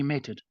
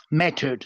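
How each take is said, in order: First: "mattered" with a New Zealand vowel, like "mettered"; New Zealand accent. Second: "Mattered." said with an open "a" and a clear r; corrected pronunciation. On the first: Real, not acted. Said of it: "my New Zealand accent's coming in". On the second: Shown as a demonstration. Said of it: "Sorry, my New Zealand accent's coming in".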